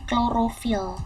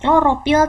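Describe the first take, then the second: First: The word is said with an f sound. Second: The word is said with a p sound. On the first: The speaker calls it right. "Klorofil itu pakai F" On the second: The speaker calls it wrong. "bukan pakai P"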